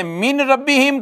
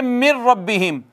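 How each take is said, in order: First: Said in the usual way. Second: "मिर रब्बिहिम" with no n, straight into a doubled r; इदगाम के साथ. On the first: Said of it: "अब कैसे पढ़ें". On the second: Shown as a demonstration. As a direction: merge the noon into ra in "मिर रब्बिहिम". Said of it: "नून अब नहीं पढ़ा जाएगा". ("मिर रब्बिहिम" नून छोड़कर सीधे रा पर)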